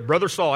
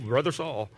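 First: It is said in a normal voice. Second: It is said in a deep voice.

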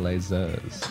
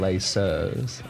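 First: The word is said with a Z sound. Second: The word is said with an S sound. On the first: The speaker calls it right. "We're saying laisseurs. So it should be a Z" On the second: The speaker calls it wrong. "We're not saying laisseurs"

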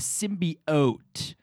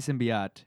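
First: The word is said with hard, heavy force. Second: The word is said plainly, without strong force. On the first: This imitates how someone else says it. The speaker calls it wrong. "really hard hitting it" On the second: This is the speaker's own usual pronunciation. The speaker calls it right. "I say symbiote"

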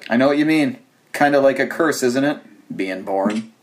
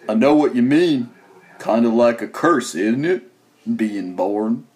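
First: It is said in his own normal voice. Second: It is said in a Forrest Gump voice.

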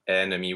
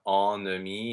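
First: The first vowel is an open e sound. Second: The first vowel is a nasal a sound. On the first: The speaker calls it right. "It's really ennemi with the open e" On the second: The speaker calls it wrong. "that initial en is not an a nasal. It's not ennemi"

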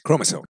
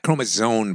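First: The middle consonant is a hissing s sound. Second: The middle consonant is a buzzing z sound. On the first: The speaker calls it right. "There's no Z in chromosome. It's chromosome" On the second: The speaker calls it wrong. "It's not chromosome, by the way, with a Z"

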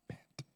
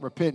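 First: It is said flatly, without excitement. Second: It is said with lively excitement.

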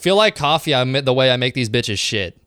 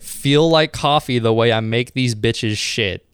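First: It is read at normal speed. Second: It is read slowly.

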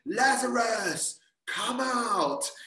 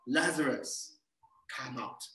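First: It is shouted loudly like an exclamation. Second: It is said calmly without an exclamation.

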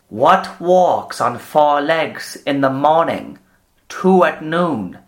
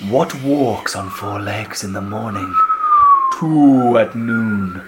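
First: It is read in a plain, normal voice. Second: It is read in a mystical, eerie voice.

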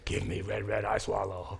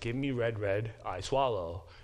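First: It is said with a grunting voice. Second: It is said in a plain voice.

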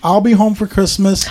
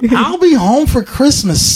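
First: It is read in the speaker's ordinary voice. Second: It is read in a put-on imitation voice.

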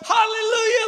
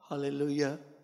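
First: The word is shouted at full volume. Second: The word is said quietly and timidly. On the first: The speaker feels no inhibition. The speaker calls it right. "Top of his voice" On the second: The speaker feels held back. The speaker calls it wrong. "your hallelujah louder was about"

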